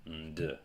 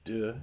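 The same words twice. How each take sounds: First: Nd as "nduh"; nasal nd sound. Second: D said alone as "duh"; d with no n before it; plain d sound. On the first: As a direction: hum n straight into d in nd. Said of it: "or nd". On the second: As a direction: say a clear voiced d. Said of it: "is either pronounced". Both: Shown as a demonstration.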